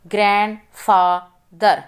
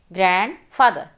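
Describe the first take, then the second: First: grandfather drawn out slowly in its syllables; slow syllable reading. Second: Said in the usual way. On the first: Shown as a demonstration. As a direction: read grandfather slowly for the class. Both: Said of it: "Read the multi-syllable words".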